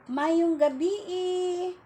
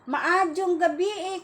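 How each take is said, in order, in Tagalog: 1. May tunog y sa gitna ng bati. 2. May tunog j sa gitna ng bati. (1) "Sabi ng taga Cebu" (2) "Sabihin naman taga Bohol"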